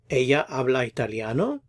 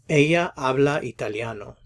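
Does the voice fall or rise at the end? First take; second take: rise; fall. First: The voice rises at the end. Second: The voice falls at the end. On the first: It asks a yes or no question. "Adjust your intonation" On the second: It states a fact. "A statement"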